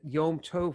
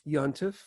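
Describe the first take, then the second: First: It is said as two separate words. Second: It is squeezed together into one word. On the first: This is the Hebrew form. "which is two words" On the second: This is the Yiddish form. "actually comes out as one word"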